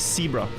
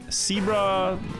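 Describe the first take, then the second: First: The word starts with a hissing S sound. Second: The word starts with a clear buzzing Z sound. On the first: The speaker calls it wrong. "I would always say S for it" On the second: The speaker calls it right. "intentionally say the Z very clearly"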